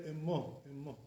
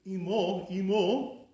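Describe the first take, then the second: First: Emo with a short lax first vowel, eh-mo; lowered chirik. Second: Imo with a tight EE, loud and raised; high chirik. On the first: Teacher showing the Iraqi way, Emo with lowered vowel. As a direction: say Emo lightly, first vowel not so high. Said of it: "It's not so high". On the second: Teacher showing what Iraqis avoid, Imo with high ee. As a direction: punch Imo as EE-mo. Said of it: "instead of saying". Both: Shown as a demonstration.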